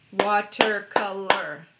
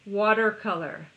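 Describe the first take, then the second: First: "Watercolor" slow and loud in four beats; "Watercolor" broken up evenly, one clap each; clapped syllables. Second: Said in the usual way. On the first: Shown as a demonstration. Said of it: "Four claps, four syllables". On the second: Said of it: "Should we do one more?".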